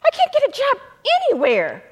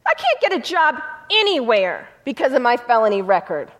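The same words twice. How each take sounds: First: Desperate plea. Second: Said in the usual way. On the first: Retold or imitated. The felon begging his lawyer, pitched high and despairing. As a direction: voice jumps much higher in a despairing plea.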